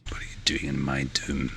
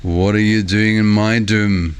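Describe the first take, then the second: First: Whispered, much lower mock-Scottish quote; hushed repeat. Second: Drawn-out, half-fake Scottish growl of Shrek; lightly put-on Scottish accent, slow. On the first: Streamer repeating the Shrek quote, in a low whisper. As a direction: drop to a low whisper, as if menacing. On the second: Streamer quoting Shrek to viewers, slow mock Scottish accent. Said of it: "reading it in a kinda half fake Scottish accent".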